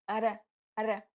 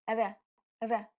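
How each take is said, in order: No difference in how they are said.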